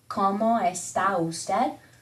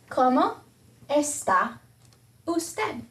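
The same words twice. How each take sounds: First: The words run together fast, vowels blended. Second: The words are said separately, vowels kept apart.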